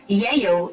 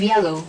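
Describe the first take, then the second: First: The l sounds are replaced by y sounds. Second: The l sounds are pronounced as l sounds. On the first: This shows a substitution disorder. "another speech sound replaces an intended phoneme or sound" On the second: This is the intended form. "instead of"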